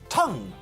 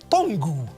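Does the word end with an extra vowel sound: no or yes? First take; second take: no; yes. First: The word ends on the ng sound. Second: The word ends with an added vowel. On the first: The speaker calls it right. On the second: The speaker calls it wrong. "not tongu"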